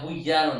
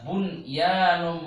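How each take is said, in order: First: The n sound merges into the following y. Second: The n sound is pronounced clearly before y. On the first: The speaker calls it wrong. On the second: The speaker calls it right.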